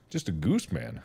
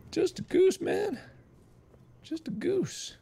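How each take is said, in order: First: Low plea. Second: High, soft little voice; small pitched-up protest; meek plea. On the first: Same plea again, dropped low. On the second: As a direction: plead innocence in a tiny high voice. Pleading innocence as the goose. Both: Pretend.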